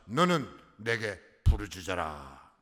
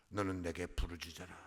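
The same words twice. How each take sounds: First: Slow, loud, weighty command with 너는 stretched out; commanding proclamation. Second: Quiet, low repeat of 너는 내게 부르짖어라; soft echo. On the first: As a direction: proclaim 너는 내게 부르짖어라 slowly, pressing hard on 너는. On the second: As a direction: say 너는 내게 부르짖어라 again, hushed and low. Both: Shown as a demonstration.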